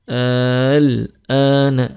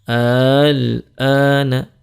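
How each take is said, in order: No difference in how they are said.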